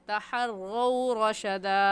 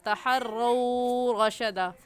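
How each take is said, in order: First: The vowel in the first word is short and soft. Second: The vowel in the first word is drawn out. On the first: The speaker calls it right. "सही है ... लीन को नरमी से और जल्दी से पढ़ जाते हैं" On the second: The speaker calls it wrong. "इसे खींच कर पढ़ना गलत होगा"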